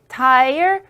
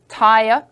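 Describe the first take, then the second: First: The final r sound is pronounced. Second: The final r sound is dropped.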